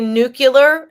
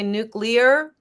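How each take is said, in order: First: The sounds do not follow the spelling. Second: The sounds follow the written spelling. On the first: The speaker calls it wrong. "people say nuclear" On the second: The speaker calls it right. "refuse to say nuclear, even though it's spelled"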